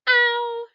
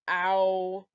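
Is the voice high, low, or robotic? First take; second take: high; low. First: It is said in a high-pitched voice. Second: It is said in a low-pitched voice. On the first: "Let's say it with a high voice" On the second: "Let's say it with a low voice"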